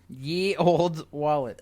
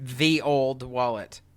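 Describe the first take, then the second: First: The first word begins with a 'y' sound. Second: The first word begins with a 'th' sound. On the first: The speaker calls it wrong. "that shouldn't be pronounced ye" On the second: The speaker calls it right. "was supposed to be pronounced th"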